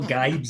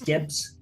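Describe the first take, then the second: First: The vowel sounds like 'eye'. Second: The vowel sounds like 'ih'. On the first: The speaker calls it wrong. "it's not Gibes" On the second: The speaker calls it right. "it's Gibbs. double double B, it's never an I"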